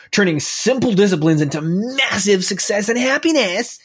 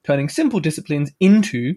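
First: A bad American accent on the title, a bit higher; hammed-up, deliberately poor American accent. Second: Said in the usual way. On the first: Shown as a demonstration. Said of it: "That was a bad accent". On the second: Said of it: "as Americans would say".

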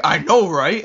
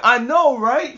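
First: Said in the usual way. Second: High, loud mock holler; comic long-distance agreement, pitched way up; calling from afar. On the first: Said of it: "from, like, a distance". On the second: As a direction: call it out high, as if from far away. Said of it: "From, like, a distance".

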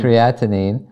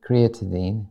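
First: Creatinine repeated as kree-AT-uh-nin, rising; corrected pronunciation. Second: Creatinine said uncertainly as cree-tuh-deen; unsure pronunciation. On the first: Shown as a demonstration. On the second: Real, not acted. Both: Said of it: "Is that how you say it?".

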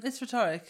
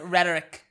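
First: "rhetoric" stressed on the second syllable; non-American rhetoric. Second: "rhetoric" stressed on the first syllable; Yankee rhetoric. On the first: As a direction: say "rhetoric" as re-TOR-ic. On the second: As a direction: say "rhetoric" as RET-er-ic, American-style. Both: Shown as a demonstration. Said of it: "I'm not a Yankee".

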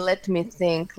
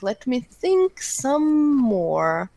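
First: Said in the usual way. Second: Slow, drawn-out musing. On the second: Real, not acted. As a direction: stretch each word out slowly while thinking. Pondering his guess aloud.

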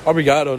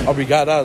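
First: "Obrigado" with a final "oh" sound; ending in -o. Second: "Obrigada" with a final "ah" sound; feminine -a ending. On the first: Teaching thank you to listeners, "Obrigado" with an "oh" ending. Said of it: "that's thank you". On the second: Explaining the feminine thank you, "Obrigada" with an "ah" ending. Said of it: "thank you in the feminine case". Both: Shown as a demonstration.

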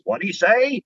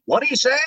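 First: Higher, quacky cartoon duck voice; Donald Duck catchphrase. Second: Much higher squawky duck voice; stronger Donald Duck. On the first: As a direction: squawk it like Donald. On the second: Retold or imitated. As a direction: push the duck voice further. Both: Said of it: "the whole shtick was".

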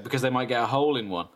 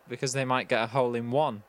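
First: "hole" stressed, "one" thrown away, a bit quick; weight on "hole", then a quick finish. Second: "one" stressed at the end, "hole" left light. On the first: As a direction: punch "hole" and rattle through. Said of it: "and I said". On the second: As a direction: hit "one" as the punchline word. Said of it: "You put the emphasis on one". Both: Retold or imitated.

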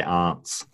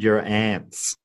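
First: "aunts" with a broad ah vowel; slow broad-A "aunts"; long-A "aunts". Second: Slow "aunts" said like "ants"; "aunts" pronounced as "ants"; short-A "aunts". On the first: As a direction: say "aunts" as "ahnts", slowly. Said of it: "you'd say aunts". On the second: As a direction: say "aunts" with the vowel of "cat". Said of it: "No, you'd say aunts". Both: Shown as a demonstration.

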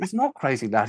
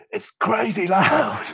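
First: Said in the usual way. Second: Mock shout, high and drawn out; alarmed complaint. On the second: Suited man complains to the sound engineer, mock alarmed shout. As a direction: cry it out slowly in a high voice.

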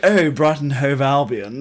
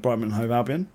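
First: Louder and slower, mock posh. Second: Said in the usual way. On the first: Shown as a demonstration. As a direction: drawl it like a snob. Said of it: "If you went". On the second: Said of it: "you just went".

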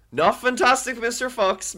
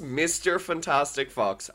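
First: High, stressing Not and Fantastic first; wrong order. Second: Mister stressed, slow and falling; right order. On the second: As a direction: lean on Mister, then slowly fall. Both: Shown as a demonstration.

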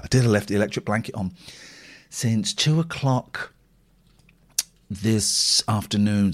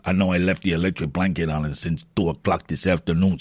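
First: Said in the usual way. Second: Low comic character voice; hammed-up low confiding voice; put-on character voice. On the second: Same line in put-on voice.

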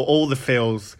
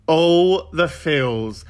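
First: Said in the usual way. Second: Very slow, drawn-out gush; gushing drawl. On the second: Acted. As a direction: stretch out every word for effect. Gushing repeat, drawn out for effect.

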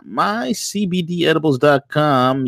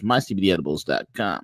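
First: Punchy ad plug. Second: Said in the usual way. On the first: Acted. Repeats sponsor name.

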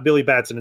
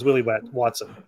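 First: Billy Batson said plainly, as the original name; the name being parodied, said plainly; the real name. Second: Willy Watson said quieter, with a falling close on Watson; the parody name. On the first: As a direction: set up the contrast with Billy Batson. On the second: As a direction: land the twist of Willy Watson, softer and falling. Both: Shown as a demonstration. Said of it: "So not Billy Batson".

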